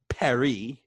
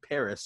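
First: Paris is said with a French accent. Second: Paris is said with an English accent.

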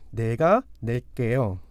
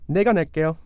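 First: It is said slowly. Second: It is said at normal speed.

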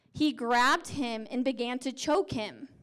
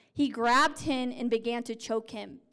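No difference in how they are said.

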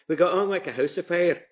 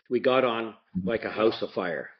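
First: It is said in his grandmother's Scottish accent. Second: It is said in his own plain accent.

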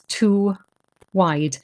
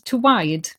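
First: The words are said separately with a clear break. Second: The words are run together with the sounds merged. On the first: "if you say that separately, it comes out as" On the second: "if you say it fast, it becomes"

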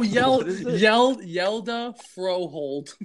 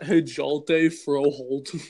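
First: The first name begins with a Y sound. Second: The first name begins with an H sound. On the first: This is the name's actual pronunciation. "listen how it's pronounced" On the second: This is the name read as it is spelled. "How are you going to tell me that's not"

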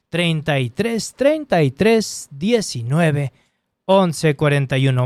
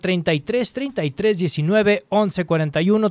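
First: The number is said at a slow pace. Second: The number is said at a fast pace.

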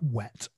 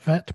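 First: The word begins with a soft W sound. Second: The word begins with a buzzing V sound. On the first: The speaker calls it right. "but wet. Soft W sound" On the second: The speaker calls it wrong. "Not vet"

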